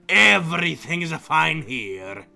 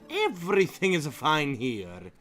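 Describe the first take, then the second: First: It is said in a Wario impression voice. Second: It is not said in Wario's voice.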